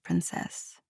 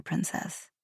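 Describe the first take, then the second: First: Breathy whispered princess, voice dropping away; soft whisper. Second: Princess dropped to a near whisper; soft murmur. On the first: Prince murmuring a pet name to her, whispered. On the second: Prince bidding her goodbye, softly murmured. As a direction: let princess fall softly, intimate. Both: Acted.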